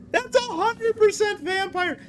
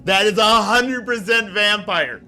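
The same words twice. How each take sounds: First: Squeaky high mock voice; silly high voice. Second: Said in the usual way. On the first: Shown as a demonstration. Repeats line in silly voice.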